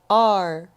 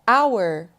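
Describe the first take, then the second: First: It is said with one syllable, like 'are'. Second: It is said with two syllables, like 'hour'. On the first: "The other way to pronounce this word is our" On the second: "You can pronounce it like our"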